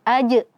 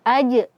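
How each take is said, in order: First: The j ends in a sharp glottal catch. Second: The same.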